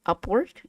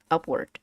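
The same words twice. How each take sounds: First: "upward" with the voice sweeping up at the end; rising glide on "upward"; upward tune. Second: Said in the usual way. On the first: Shown as a demonstration. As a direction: lift the pitch through "upward". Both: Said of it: "you say this upward".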